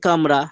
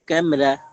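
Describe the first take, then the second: First: The first vowel is a plain open 'a'. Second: The first vowel is fronted toward 'e'. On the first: "বাংলার কামরা" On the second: "Urdu উচ্চারণে পুরোপুরি কা নয়, বরং ফাতাকে একটু নামিয়ে এনে"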